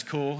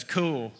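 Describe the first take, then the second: First: Said in the usual way. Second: Don's drawn Southern "Cool", imitated; Southern accent. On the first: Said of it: "He says, "Cool". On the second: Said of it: "it's that Southern accent".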